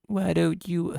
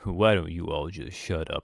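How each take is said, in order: First: Put-on high squeaky Victorian child; shrill stagey period child. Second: A hint of a prim Victorian child; lightly voiced posh period kid. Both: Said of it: "Basically Victorian child voice".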